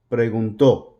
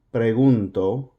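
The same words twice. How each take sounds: First: Preguntó with the force on the final tó; stress on last syllable. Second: Said in the usual way. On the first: Shown as a demonstration. Teacher contrasting the past tense by stressing preguntó's final tó. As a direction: lean hard on the accented tó of preguntó. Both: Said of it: "that accent is going to have more force on it".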